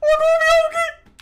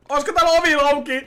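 First: Very high, loud holler; piercingly high shouted question; high-pitched yell. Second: Loud, quick, higher-pitched call; raised-voice question, rattled off. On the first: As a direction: yell it at the top of your voice. Calling again about the door. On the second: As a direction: call through the building for someone. Calling out about a door. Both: Pretend.

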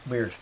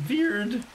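First: Said in the usual way. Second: Much higher, playful "Weird"; goofy high-pitched echo of "Weird"; high silly voice. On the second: Pretend. Repeats the word playfully.

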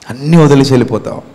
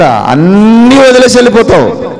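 First: Said in the usual way. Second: Loud, high warning. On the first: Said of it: "repeated line, plain fast take". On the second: Acted. Preacher warning the congregation, high and loud. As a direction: raise the pitch and press hard. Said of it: "repeated line, marked take".

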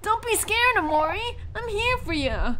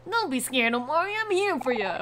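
First: Much higher, louder, pushing the throat hard; strained Kel voice. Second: Kel voice, less pushed, still higher and a bit louder; eased Kel voice. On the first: Reassuring a scared friend, strained loud Kel voice. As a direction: belt it out like a big brave friend. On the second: Redoing the line for a scared friend, eased Kel voice. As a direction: ease off the throat, still brave and friendly. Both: Acted. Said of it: "am I pushing my throat too hard".

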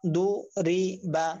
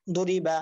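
First: "দু রি বা" slowly, syllable by syllable; teacher splitting "দু রি বা" for learners; broken-up syllables. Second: "দু রি বা" run together as one word; "দু রি বা" read whole after splitting; joined-up word. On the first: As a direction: clear gap after each part of "দু রি বা". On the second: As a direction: blend "দু রি বা" without gaps. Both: Shown as a demonstration. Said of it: "আপনারা ভাঙ্গা উচ্চারণ করবেন".

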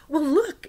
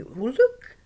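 First: Much higher, louder gleeful call; excited. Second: High, loud delighted call; excited. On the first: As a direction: show it off with joy. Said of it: "he was dancing, all excited". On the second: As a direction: call out thrilled. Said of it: "he was all excited". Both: Retold or imitated.

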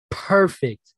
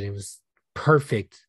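First: Higher and louder, savouring Perfect; Perfect, lifted up high and loud like a sigh of delight; savoured emphasis. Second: Said in the usual way. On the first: Real, not acted. Savouring repeat.

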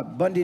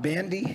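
First: "Bundy" with the first vowel as in "bun"; mispronounced name. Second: "Bandy" with the first vowel as in "band"; corrected name. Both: Real, not acted. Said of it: "sorry, Wa-, Ryan Bandy to come up".

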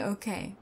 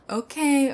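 First: Said in the usual way. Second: "Okay" thrown out higher and louder, then falling; a loud, giving-in "Okay"; emphatic okay. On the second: Acted. Conceding to the listener.

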